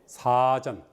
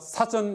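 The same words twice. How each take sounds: First: The first vowel is drawn out long. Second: The first vowel is held short. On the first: "좀 길게" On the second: "짧게 하면 되고"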